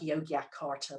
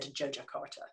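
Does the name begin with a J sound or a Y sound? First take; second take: Y sound; J sound. First: The name begins with a Y sound. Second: The name begins with a J sound. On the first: This is how the spelling suggests saying it. The speaker calls it wrong. "It looks like" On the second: This is how it is actually said. The speaker calls it right. "it's actually said"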